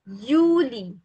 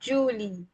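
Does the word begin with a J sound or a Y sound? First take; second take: Y sound; J sound. First: The word begins with a Y sound. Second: The word begins with a J sound. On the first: The speaker calls it right. "pronunciation will be like Yuli" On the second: The speaker calls it wrong. "not Julie"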